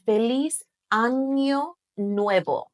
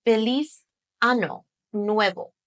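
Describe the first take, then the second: First: Año drawn out with an ny sound; Spanish ñ. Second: Ano with a simple n, no y glide; mistaken plain n. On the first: Teacher shows the New Year greeting, clear ny in Año. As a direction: say Año as AN-yo in Feliz Año Nuevo. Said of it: "you'll definitely want to say". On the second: Teacher shows the mistaken greeting, plain n in Ano. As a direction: say Ano as AH-no in Feliz Ano Nuevo. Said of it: "instead of". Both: Shown as a demonstration.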